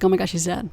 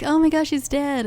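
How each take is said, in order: First: Said in the usual way. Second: High, soft mock shock; mock gasp. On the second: Corley reacting to the hanging, high mock shock. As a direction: gasp it out in hammed-up horror.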